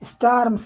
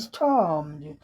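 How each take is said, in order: First: The vowel sounds like 'ar' in 'star'. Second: The vowel sounds like 'or' in 'for'. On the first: The speaker calls it wrong. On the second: The speaker calls it right.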